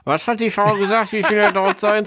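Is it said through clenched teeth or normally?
clenched teeth. It is said through clenched teeth.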